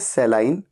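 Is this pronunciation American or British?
British. It is said with a British pronunciation. "British English में इसे कहा जाता है"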